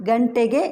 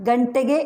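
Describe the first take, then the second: No difference in how they are said.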